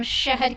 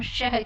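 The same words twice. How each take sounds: First: शहर said with a plain dental s, like सहर; शहर mispronounced as सहर with a hissed s; wrong s sound. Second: शहर with a clear palatal sh at the start; correct sh sound. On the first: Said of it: "तो हम शहर नहीं कहते हैं". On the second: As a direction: say शहर with the tongue raised for sh. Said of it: "हम शहर कहते हैं". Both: Shown as a demonstration.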